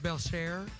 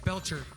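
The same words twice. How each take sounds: First: The name is pronounced the French way. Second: The name is pronounced the English way. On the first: This is the technically correct original form. "technically, my last name is pronounced Belcher because it's French" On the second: This is how the family actually says it. "even my family doesn't pronounce it that way"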